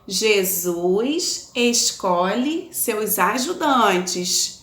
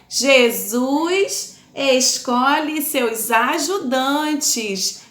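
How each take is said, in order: First: It is said at normal volume. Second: It is said very loudly.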